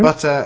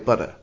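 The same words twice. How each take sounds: First: The middle consonant is a crisp T sound. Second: The middle consonant is a soft D sound. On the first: "We say" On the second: "you guys say butter, ... turning the what we would see as a T more into a D sound"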